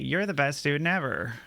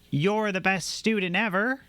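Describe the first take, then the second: First: It is said flatly, without any enthusiasm. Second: It is said with warm, lively enthusiasm. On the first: It is not meant as a compliment. "and then it's not" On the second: It is a sincere compliment. "I'm very enthusiastic about it"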